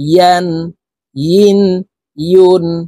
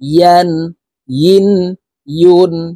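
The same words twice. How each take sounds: First: The syllables start with a y sound. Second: The same.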